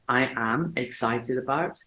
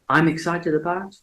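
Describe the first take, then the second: First: I am is said as two separate full words. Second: I am is joined into one short syllable. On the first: It sounds stiff and mechanical. The speaker calls it wrong. "don't say I am excited about because you sound robotic" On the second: It sounds natural and relaxed. The speaker calls it right. "you will sound less robotic"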